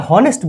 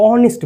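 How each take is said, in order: First: "হনেস্ট" with an audible h at the start; pronounced H. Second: "অনেস্ট" with no h, opening on o; silent H. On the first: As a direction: put a breathed h before the o in "হনেস্ট". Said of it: "আমরা হনেস্ট বলি না". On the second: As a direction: start "অনেস্ট" directly with the o vowel. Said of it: "এইচটা উচ্চারণই হয় না". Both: Shown as a demonstration.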